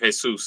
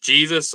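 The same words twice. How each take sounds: First: The name is said with Spanish sounds. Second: The name is said with English sounds. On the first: "but they're Jesus" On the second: "pronounced just Jesus"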